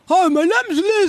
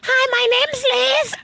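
First: It is said in a deep voice. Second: It is said in a high voice.

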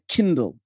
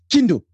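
First: It is said plainly with a clear L. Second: It is said in a Shona accent without L.

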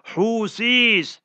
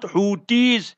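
First: The middle consonant is a th sound. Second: The middle consonant is a t sound. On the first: The speaker calls it right. "is ha, waw, sa" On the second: The speaker calls it wrong. "not Houthis ... is not ta"

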